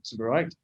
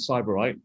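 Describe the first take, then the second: First: The first syllable sounds like 'sib'. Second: The first syllable sounds like 'cyber'. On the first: This is the standard way of saying it. The speaker calls it right. "correct pronunciation is Sybarite" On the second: This is the playful in-house way of saying it. The speaker calls it wrong. "We like to pronounce it Cyberite"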